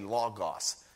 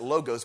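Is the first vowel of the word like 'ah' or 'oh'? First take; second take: ah; oh. First: The first vowel sounds like 'ah'. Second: The first vowel sounds like 'oh'. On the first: The speaker calls it right. "but it's actually logos. The O is ah" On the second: The speaker calls it wrong. "Some pronounce it logos"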